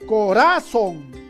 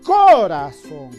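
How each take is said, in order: First: The stress is on the middle syllable. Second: The stress is on the first syllable. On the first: "quizás sea grave" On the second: "tal vez esté en la co. A ver, tal vez sea esdrújula"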